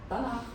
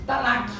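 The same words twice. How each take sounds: First: "Tanakh" ending in a throaty R sound, not K; Tanakh with a final R. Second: "Tanakh" ending on a clear hard K sound. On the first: Shown as a demonstration. Preacher gives the correct Hebrew ending, throaty R. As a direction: end "Tanakh" on a guttural R, quietly. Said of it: "Fim, então só de R". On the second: Retold or imitated. Preacher mimics the common way of saying it, hard K. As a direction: imitate how some people say "Tanakh", final K. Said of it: "algumas pessoas falam o quê?".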